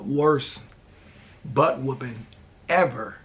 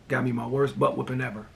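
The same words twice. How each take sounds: First: Worst, butt whooping, ever each said apart with long pauses; dramatic slow emphasis. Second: Said in the usual way. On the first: Shown as a demonstration. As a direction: land each word alone for drama. Slow dramatic emphasis, then plain repeat.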